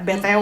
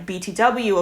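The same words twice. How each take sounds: First: The letters are said with Indonesian names. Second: The letters are said with English names. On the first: "Kalau orang Indo pronounce-nya" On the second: "in English we pronounce"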